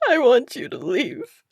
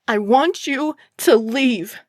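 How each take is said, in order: First: It is said in a crying voice. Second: It is yelled loudly.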